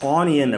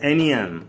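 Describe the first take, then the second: First: It begins with a long 'ah' vowel. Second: It begins with a short 'uh' vowel. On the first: The speaker calls it wrong. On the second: The speaker calls it right.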